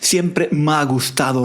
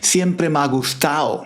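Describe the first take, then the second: First: The d in gustado is sounded. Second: The d in gustado is left out. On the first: "también decimos esto, como la chica" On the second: "No pronunciamos la D al final"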